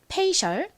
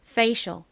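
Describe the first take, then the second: First: It is said with Korean sounds. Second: It is said with American sounds. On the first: "한국식으로는" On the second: "미국식 원어 발음으로는 F를 세게 쌍비읍에 가깝게 발음해서"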